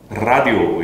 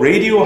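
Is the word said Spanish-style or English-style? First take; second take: Spanish-style; English-style. First: The vowels sound Spanish-like, as in rah-dee-oh. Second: The vowels sound English, as in ray-dee-oh. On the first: The speaker calls it wrong. "라디오라고 하면은 스페인어 하는 것 같아요" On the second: The speaker calls it right. "맞는 발음은 radio입니다"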